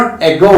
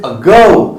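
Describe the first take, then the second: First: Ago said "EH-go" with a full first vowel; wrong pronunciation. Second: Ago as "uh-GO", weak first vowel, long GO; correct pronunciation. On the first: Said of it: "So it is not ego". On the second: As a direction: lean on the second syllable of ago. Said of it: "it is ago". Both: Shown as a demonstration.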